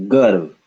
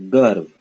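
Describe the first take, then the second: The two takes are said the same way.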